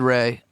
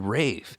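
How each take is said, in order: First: The name ends on the vowel, no consonant. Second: The name has a long A, ending in F. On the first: The speaker calls it wrong. "He said Ray" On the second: The speaker calls it right. "It's actually Rafe"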